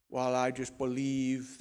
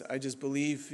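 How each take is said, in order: First: Put-on slow, half-hearted Austrian accent; softer, badly faked Austrian accent; attempted Schwarzenegger accent. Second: Said in the usual way. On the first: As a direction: try an Austrian action-star accent, badly. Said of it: "then I can't do his accent". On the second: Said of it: "But anyways".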